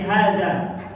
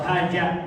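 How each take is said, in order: First: The middle consonant is a soft dh sound. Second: The middle consonant is a j sound. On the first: The speaker calls it right. "Tapi hadza" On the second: The speaker calls it wrong. "atau haja"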